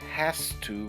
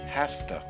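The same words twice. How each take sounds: First: 'Has to' is said fully, each sound clear. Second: 'Has to' is reduced to a quick 'hasta'.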